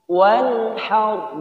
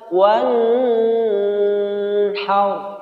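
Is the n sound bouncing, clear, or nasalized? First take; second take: clear; nasalized. First: The n is pronounced clearly without nasal hum. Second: The n is held with a nasal hum. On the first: The speaker calls it right. "jelas tanpa ditahan atau dengung" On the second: The speaker calls it wrong. "Tidak boleh dibaca wan haur sehingga mengakibatkan dengung"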